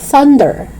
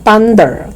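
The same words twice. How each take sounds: First: It begins with a voiceless th sound. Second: It begins without a voiceless th sound. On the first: The speaker calls it right. "It's thunder" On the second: The speaker calls it wrong. "It's not thunder"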